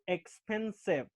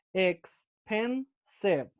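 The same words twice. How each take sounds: First: Said in the usual way. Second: "expensive" broken into three slow, separate syllables. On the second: Shown as a demonstration. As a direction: say "expensive" very slowly, pausing between ex, pen and sive. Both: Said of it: "three syllables".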